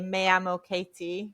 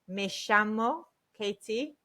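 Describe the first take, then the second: First: The double L is said the standard Spanish way. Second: The double L is said as a sh sound. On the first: "I guess you would say standard Spanish" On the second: "If you go to Argentina"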